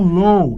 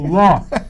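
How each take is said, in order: First: The vowel glides like 'oh' in go. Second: The vowel is an open 'aw' sound. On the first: The speaker calls it wrong. "Ou então low. Low é baixo" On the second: The speaker calls it right. "L O com acento, law"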